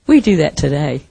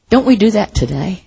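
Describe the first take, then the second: First: "today" settled low as a plain answer; firm statement. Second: "today" lifted in a questioning rise; rhetorical question. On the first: Preacher answering his own question, lower statement ending on "today". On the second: Preacher challenging the congregation, rhetorical question rising on "today". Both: Real, not acted.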